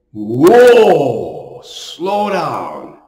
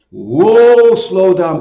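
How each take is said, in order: First: A long, easy "Whoa" that eases off into "slow down"; drawn-out calm whoa. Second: A short "Whoa" called out higher and louder, then "slow down" firmly; sharp commanding whoa. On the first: The priest voices covid gently telling people to slow down. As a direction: stretch the "Whoa" out like gently reining in a horse. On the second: The priest voices the Lord loudly ordering his flock to slow down. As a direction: pull them up short with a loud sudden "Whoa". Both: Acted.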